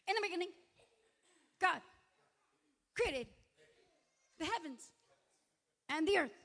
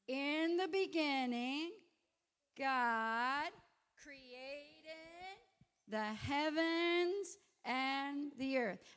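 First: It is said very fast. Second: It is said at a normal speed.

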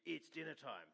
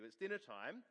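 First: It is said sternly, like a scolding. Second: It is called out in a friendly tone.

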